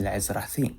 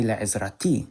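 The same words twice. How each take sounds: First: Le'ezrathi with th as in thin; Le'ezrathi, th in place of t; th not t. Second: Le'ezrati with a hard t before the final i; Le'ezrati, t in place of th; t not th. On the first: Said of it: "I said". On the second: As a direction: say Le'ezrati with a plain English t. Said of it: "I didn't say". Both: Shown as a demonstration.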